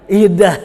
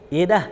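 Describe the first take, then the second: First: Louder, curt, careless reply; louder grudging "Iya dah"; rude iya dah. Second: Offhand reply. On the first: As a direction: throw "Iya dah" away loudly like you can't be bothered. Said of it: "tuh nggak punya adab". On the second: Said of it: "Apalagi pakai dah". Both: Shown as a demonstration.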